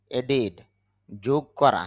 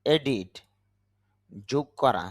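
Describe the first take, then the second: No difference in how they are said.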